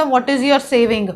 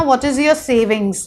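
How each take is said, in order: First: Slow demo of the mistake, saving without the final s; wrong form saving. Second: Slow, careful demo with savings ending in a clear s; correct plural savings. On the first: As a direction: say saving with no s, as the error, slowly. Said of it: "ये नहीं बोला जाता". (धीमे से गलत रूप saving, बिना s के) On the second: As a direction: spell out savings with the final s, slowly. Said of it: "सेविंग्स बोला जाता है". (धीमे से savings पर साफ़ s के साथ) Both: Shown as a demonstration.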